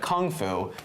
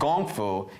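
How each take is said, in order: First: The first word begins with a hard k sound. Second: The first word begins with a soft g sound. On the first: The speaker calls it wrong. "they never say that in movies" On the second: The speaker calls it right. "because that's actually how it's pronounced"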